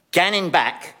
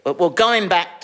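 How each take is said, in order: First: Going back said as ganning back; Geordie word. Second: Said in the usual way. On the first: Pretend. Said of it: "I always thought you had a Geordie accent". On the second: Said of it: "ganning back".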